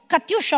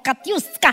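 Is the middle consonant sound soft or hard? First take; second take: soft; hard. First: The middle consonant is a soft sh sound. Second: The middle consonant is a hard sk sound. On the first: "morbido con l'H" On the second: "senza H, secco"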